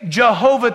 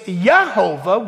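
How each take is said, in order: First: The name begins with a J sound. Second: The name begins with a Y sound. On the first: The speaker calls it wrong. "we're saying it wrong" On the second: The speaker calls it right. "It's Yahovah"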